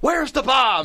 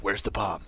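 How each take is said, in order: First: The phrase is yelled loudly. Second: The phrase is whispered quietly. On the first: "then yell it" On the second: "he would always whisper it once"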